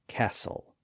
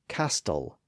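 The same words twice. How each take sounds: First: The T sound is silent in the middle. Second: The T sound is pronounced in the middle. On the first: "instead of" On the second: "the T was still being pronounced"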